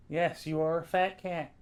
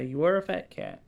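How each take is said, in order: First: "fat" leaned on, tune falls to the end; stress on fat. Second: "are" leaned on with a falling end; stress on are. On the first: Owner teasing the cat, stress on "fat". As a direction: tease the cat, land on "fat". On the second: Owner insisting to the cat, stress on "are". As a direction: insist the cat truly is fat, hit "are". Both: Shown as a demonstration.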